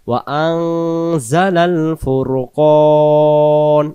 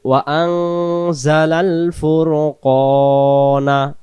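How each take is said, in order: First: The last word ends with a consonant. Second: The last word ends with a vowel. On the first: The reciter stops to take a breath here. "দম ছেড়ে দিলে আমরা উচ্চারণ নুন জবর না না পড়ে ফুরকন এভাবে পড়বো" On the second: The recitation continues without stopping. "উচ্চারণ হবে"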